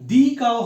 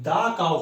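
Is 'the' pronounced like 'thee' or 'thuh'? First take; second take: thee; thuh. First: The word 'the' has a long 'ee' vowel. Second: The word 'the' has a short 'uh' vowel. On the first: The speaker calls it wrong. "এটা কখনোই দি cow হবে না" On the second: The speaker calls it right. "দা cow হবে"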